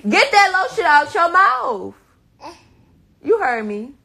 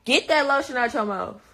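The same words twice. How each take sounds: First: Much higher, loud scolding; sharp scold. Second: Said in the usual way. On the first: Real, not acted. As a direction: raise the pitch, scold hard. Scolding child with lotion.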